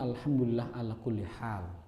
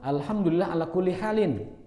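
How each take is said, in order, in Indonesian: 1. Akhiran -in di akhir dihilangkan. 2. Akhiran -in di akhir dibaca. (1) "karena kita tidak ingin membacanya in, dan itu boleh" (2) "Ini juga sama"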